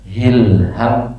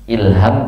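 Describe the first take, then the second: First: The word begins with a breathy h sound. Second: The word begins directly with a vowel. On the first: "pakai ha" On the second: "pakai hamzah"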